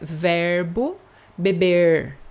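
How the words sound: The final R is a retroflex R. "com o R retroflexo"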